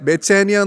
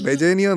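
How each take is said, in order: First: The middle consonant is a 'ch' sound. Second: The middle consonant is a 'j' sound. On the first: The speaker calls it right. "ബേച്ചേനിയ എന്നാണ്" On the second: The speaker calls it wrong. "ബേജേനിയ എന്നാ അങ്ങനെ എന്തോ പാടിയത്"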